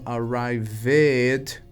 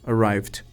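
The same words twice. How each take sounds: First: The ending is drawn out with an extra vowel. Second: The ending is short without an extra vowel. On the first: The speaker calls it wrong. "E não como arrived" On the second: The speaker calls it right. "mas ele mais curtinho"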